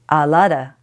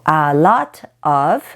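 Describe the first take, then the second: First: The final word is reduced to a short 'a'. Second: The final word is said as a full 'of'. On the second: "of is often pronounced a"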